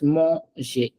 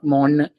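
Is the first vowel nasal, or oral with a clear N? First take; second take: nasal; oral. First: The first vowel is nasal with no separate N. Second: The first vowel is oral with a sounded N. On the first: The speaker calls it right. "it's manger" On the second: The speaker calls it wrong. "It's not manger"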